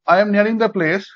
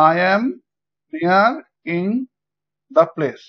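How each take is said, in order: First: Said in the usual way. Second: "I am ... near ... in ... the place" in separate pieces, a pause after each; broken into syllables. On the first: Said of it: "যদি আমরা এই লাইনটাকে". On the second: Shown as a demonstration. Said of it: "syllable অনুযায়ী ভাঙি তাহলে পাবো". ("I am near in the place" syllable অনুযায়ী ভেঙে, থেমে থেমে বলা)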